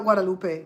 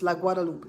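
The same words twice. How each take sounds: First: "Guadalupe" with a final e sound, Spanish style; wrong Guadalupe. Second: "La Guadalupe" ending -lup, no final e; French La Guadalupe. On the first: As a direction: say "Guadalupe" ending -pe. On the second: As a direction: clip the end of "Guadalupe". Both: Shown as a demonstration. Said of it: "It's not Guadalupe".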